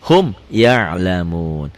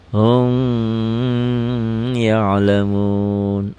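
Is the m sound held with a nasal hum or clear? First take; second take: clear; nasal hum. First: The m is pronounced clearly without a nasal hold. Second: The m is held with a nasal hum. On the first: The speaker calls it right. "Hukumnya idhar" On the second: The speaker calls it wrong. "dibacanya digayem ... Padahal salah bacanya"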